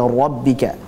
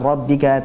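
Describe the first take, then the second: First: The r sound is thick and heavy. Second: The r sound is thin and light. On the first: The speaker calls it right. "ra-nya tebal" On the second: The speaker calls it wrong. "jangan rabbika"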